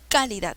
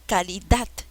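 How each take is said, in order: First: The stress is on the first syllable. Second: The stress is on the last syllable. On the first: The speaker calls it wrong. "No, no es calidad" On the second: The speaker calls it right. "Es dat"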